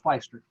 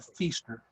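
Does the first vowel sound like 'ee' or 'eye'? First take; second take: eye; ee. First: The first vowel sounds like 'eye'. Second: The first vowel sounds like 'ee'. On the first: This is how the name's owner says it. The speaker calls it right. "but it is Feister" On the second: This is how people locally say it. The speaker calls it wrong. "Around here, we pronounce it Feaster"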